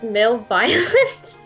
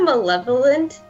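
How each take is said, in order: First: The middle sounds like 'violent', with a 'vy' sound. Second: The middle sounds like 'lev', with no 'vy' sound. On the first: "So I always pronounce it as male violent" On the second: "so you know malevolent?"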